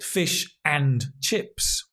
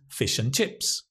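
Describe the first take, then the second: First: The word 'and' is said in its full form. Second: The word 'and' is reduced to a weak form. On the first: The speaker calls it wrong. "It's not fish and chips" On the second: The speaker calls it right. "the and is not stressed. It's a weak form"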